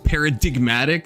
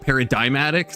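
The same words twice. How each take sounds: First: The G sound in the middle is pronounced. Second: The G sound in the middle is silent. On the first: The speaker calls it right. "you just start saying a G that you never said before" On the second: The speaker calls it wrong. "not like paradigmatic"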